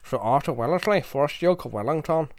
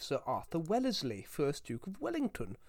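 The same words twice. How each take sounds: First: It is said in a Belfast accent. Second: It is said in a posh English accent. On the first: "I can do Belfast" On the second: "I should have actually said his name in not a posh English accent"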